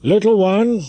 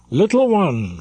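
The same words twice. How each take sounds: First: High, loud call down to the square; a captain hailing the dancer below. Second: A touch higher, louder call again; lightly voiced captain calling her up; repeated call. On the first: Acted. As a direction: call her from the balcony. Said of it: "he began to call out". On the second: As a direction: beckon her once more. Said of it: "repeated the captain".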